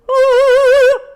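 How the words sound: The vowel has a dark, deep resonance. "more darkness"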